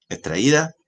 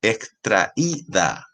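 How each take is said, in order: First: Said in the usual way. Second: Extraída very slow, with í held apart from tra; slow teaching extraída, stress on í; syllable by syllable. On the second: Shown as a demonstration. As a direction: break extraída into slow, separate syllables for a class. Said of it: "tra-, extraída, es un hiato".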